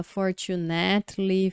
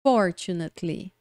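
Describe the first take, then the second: First: "fortunately" stressed late, for-chu-NAT-ly; misplaced stress. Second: "fortunately" said FOR-chu-nat-ly, low-pitched; first-syllable stress. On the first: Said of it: "campeãs de erro de pronúncia". ("fortunately" com tônica errada em NAT) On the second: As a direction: hit FOR in "fortunately", let the rest fall. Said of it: "a primeira é a tônica". ("fortunately" com tônica na primeira sílaba) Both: Shown as a demonstration.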